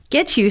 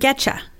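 First: The two words are said fully and separately. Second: The words blend into one with a 'ch' sound.

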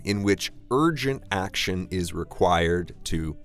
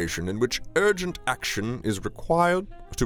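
First: It is read without a British accent. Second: It is read in a put-on British accent. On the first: "I won't have a bad British accent this time" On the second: "I won't have a bad British accent this time"

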